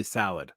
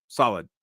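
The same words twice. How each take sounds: First: "solid" said as "salid", with an A sound; vowel in "solid" like "sad"; southern "solid". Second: Said in the usual way. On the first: Real, not acted. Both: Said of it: "my southern accent where I pronounce everything as A".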